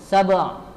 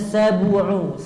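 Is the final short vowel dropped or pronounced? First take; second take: dropped; pronounced. First: The final u vowel is dropped. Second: The final u vowel is clearly pronounced. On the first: The speaker calls it wrong. "tidak menampakkan dhammah" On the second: The speaker calls it right. "Harusnya sabu'u"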